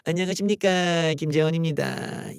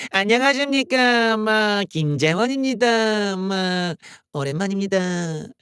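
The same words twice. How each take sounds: First: Said in the usual way. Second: Slow, heavy Gyeongsang dialect greeting; Gyeongsang impression. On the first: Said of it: "경상도 사투리가 좀". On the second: Imitating politician Kim Jae-won's greeting in Gyeongsang dialect. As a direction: drawl the hello in Gyeongsang dialect. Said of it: "경상도 사투리".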